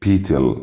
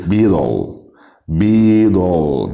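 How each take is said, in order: First: Beetle with a crisp t, "bee-tel"; wrong light L ending. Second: Beetle said as "bee-dol"; dark rounded L ending. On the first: Teacher showing how beetle is not said, "tel" ending. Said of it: "ما اسمهاش beetle". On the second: Teacher modelling beetle for learners, rounded "dol" ending. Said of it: "لازم نضم فيها". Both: Shown as a demonstration.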